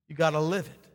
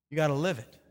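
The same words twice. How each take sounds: The two takes are said the same way.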